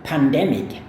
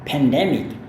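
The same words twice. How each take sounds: First: The first syllable sounds like 'pan'. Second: The first syllable sounds like 'pen'. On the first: "cara melafalkannya adalah yang aku tulis di depan Anda ini" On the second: "kalau misalkan orang Amerika yang ngomong... sering dilafalkan dengan pen"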